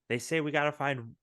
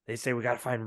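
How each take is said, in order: First: It is said in an ordinary natural voice. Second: It is said in a put-on gruff voice. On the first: The speaker calls it wrong. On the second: The speaker calls it right.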